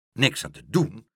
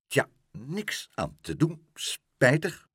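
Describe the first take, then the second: First: Incredulous echo of the words; indignant exclamation. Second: Pompous, unbothered porter; self-important. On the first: Meneer Pen answering the porter, indignantly incredulous. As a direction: throw it back in disbelief. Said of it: "riep meneer Pen". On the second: Porter dismissing Pluk's lost house, self-important. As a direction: brush it off with importance. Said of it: "schraapte gewichtig zijn keel en zei". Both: A narrator's reading.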